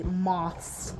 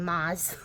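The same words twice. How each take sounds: First: MOTHS as other people say it, drawn out; others' pronunciation. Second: MOTHS said her own local way, less drawn out; own regional pronunciation. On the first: Retold or imitated. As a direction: say moths slowly, imitating another region's accent. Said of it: "talking about how they say moths". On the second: Shown as a demonstration. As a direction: demonstrate moths in a casual American accent. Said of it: "we're over here saying moths".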